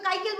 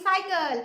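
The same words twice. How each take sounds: First: কাইকেল with a hard k sound at the start; the mistaken k-sound version, কাইকেল; wrong hard C. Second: সাইকেল with a soft s sound at the start; the correct s-sound version, সাইকেল; right soft C. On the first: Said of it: "তখন তো কাইকেল বলি না আমরা". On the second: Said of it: "বলি সাইকেল". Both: Shown as a demonstration.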